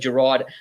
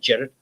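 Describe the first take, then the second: First: The name is said like 'Gerard'. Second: The name is said like 'Jared'. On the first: "people will say Gerard" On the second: "Jared is actually the way you say it in Scotland"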